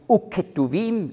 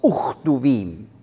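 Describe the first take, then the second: First: The consonant after the first vowel is a hard k. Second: The consonant after the first vowel is a soft ch. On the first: The speaker calls it wrong. "Dann sagt man nicht Uketuvim" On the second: The speaker calls it right. "dann wird das K weich"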